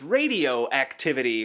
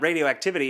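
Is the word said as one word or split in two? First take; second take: split; one word. First: It is split into two words, radio and activity. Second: It is said as one ordinary word. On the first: It refers to activities done with a radio. "This is where we do our radio activities" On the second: It refers to nuclear radiation. "it's not radioactivity"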